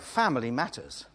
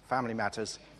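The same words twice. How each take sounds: First: It is said earnestly, affirming family's importance. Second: It is said guardedly, shutting the topic down.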